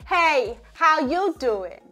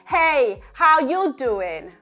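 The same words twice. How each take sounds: First: The voice sounds neutral, larynx at rest. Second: The voice sounds neutral, larynx at rest.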